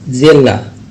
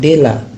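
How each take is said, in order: First: The word starts with a z-like sound. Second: The word starts with a plain d sound. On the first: The speaker calls it right. "tapi zela" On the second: The speaker calls it wrong. "Jadi tidak kita ucapkan dela"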